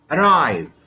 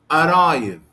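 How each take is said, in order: First: The stress is on the second syllable. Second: The stress is on the first syllable. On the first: The speaker calls it right. "The stress here is on the second syllable" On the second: The speaker calls it wrong. "I cannot say like this"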